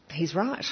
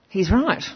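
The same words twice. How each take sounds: First: Soft, hushed first "He's right"; half to herself, a dawning "He's right" said softly; quiet inner realisation. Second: "He's right" again, louder and decided; firm conviction. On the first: Recalling the speech that moved her, soft dawning realisation. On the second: Moved by the speech, louder firm agreement. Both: Retold or imitated. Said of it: "And I thought".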